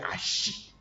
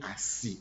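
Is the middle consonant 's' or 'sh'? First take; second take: sh; s. First: The middle consonant is an 'sh' sound. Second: The middle consonant is a plain 's' sound.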